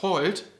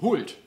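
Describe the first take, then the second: First: The short vowel sounds like an O. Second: The short vowel is rounded toward U. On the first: "das kurze O" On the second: "Regional, in Teilen von Schleswig-Holstein, wird dieses kurze O nämlich stärker gerundet zum U"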